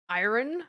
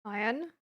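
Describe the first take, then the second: First: "Iron" said as eye-ron, r clearly pronounced, rising. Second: "Iron" said as eye-un, no r sound, rising like a question; iron without the r. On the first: Trying the friend's version of "Iron" for comparison, r sounded, rising. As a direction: say "Iron" with a full r in the middle, as a question. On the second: Checking her own way of saying "Iron" with a friend, r dropped, rising. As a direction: say "Iron" the British way, dropping the r and asking. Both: Shown as a demonstration. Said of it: "How do you say iron?".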